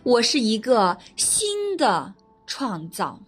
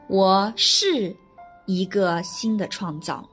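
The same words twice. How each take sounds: First: The stress is on the word 新的. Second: The stress is on the word 是.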